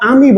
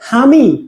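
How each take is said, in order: First: The word begins directly with a vowel. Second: The word begins with an h sound. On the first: "ওরা আমি বলে না" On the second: "ওরা বলে হামি"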